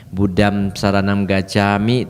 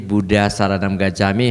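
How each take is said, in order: First: The first word ends with closed lips, m. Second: The first word ends in an open vowel. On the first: The speaker calls it right. "harusnya Buddham. ... mulutnya ditutup" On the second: The speaker calls it wrong. "kita sering melafalkan dengan cara yang kurang tepat"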